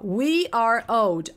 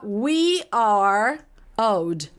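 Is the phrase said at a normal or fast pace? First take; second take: fast; normal. First: The phrase is said quickly, run together. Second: The phrase is said at a normal pace.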